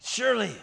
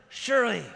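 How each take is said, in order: Both takes have the same delivery.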